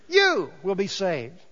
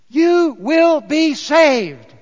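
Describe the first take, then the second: First: Said in the usual way. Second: WILL stretched, much louder and higher, very slow; emphatic proclamation. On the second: Shown as a demonstration. Pastor driving home the promise, loud slow emphasis on "will". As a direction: preach each word out, leaning on "will".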